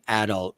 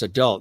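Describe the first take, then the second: First: It is said the Irish family way. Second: It is said the usual, non-Irish way.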